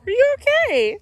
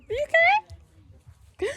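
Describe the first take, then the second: First: High, loud mock-worried question; mock-concerned. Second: Very high, slow, sobbing mock-worried question; mock tearful. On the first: Mom asking viewers in a hammed-up worried voice. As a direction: ham up the concern. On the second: Mom asking viewers again in a drawn-out mock sob. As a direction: stretch it out like fake crying. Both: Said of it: "Me have to talk like this from now on".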